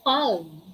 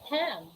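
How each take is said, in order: First: The L sound is pronounced. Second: The L sound is silent. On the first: The speaker calls it wrong. "We don't say palm" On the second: The speaker calls it right. "We say palm"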